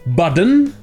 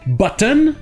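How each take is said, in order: First: The middle consonant is a soft d sound. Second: The middle consonant is a clear t sound. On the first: "ou comme on a vu hier" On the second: "on aurait envie de le prononcer button"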